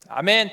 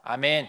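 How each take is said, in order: First: The amen is said at moderate loudness. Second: The amen is said very quietly and weakly.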